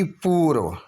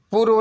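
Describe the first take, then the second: First: पूर्व with a stretched poo; long oo. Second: पूर्व with a brief pu; short u. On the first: Teacher correcting the spelling, पूर्व with long oo. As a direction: hold the oo in पूर्व. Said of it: "बल्कि पूर्व". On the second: Teacher showing the error, पूर्व with short u. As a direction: clip the vowel in पूर्व. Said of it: "नहीं बल्कि". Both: Shown as a demonstration.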